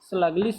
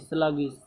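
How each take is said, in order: First: An extra L sound comes before the ending. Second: No extra L sound comes before the ending. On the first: The speaker calls it wrong. "स्लगलिश नहीं" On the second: The speaker calls it right.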